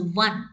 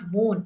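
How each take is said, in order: First: The vowel sounds like the vowel in 'sun'. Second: The vowel sounds like the vowel in 'on'. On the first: The speaker calls it right. "in the same way we will pronounce W O N as one" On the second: The speaker calls it wrong. "There are people who mispronounce it by saying won"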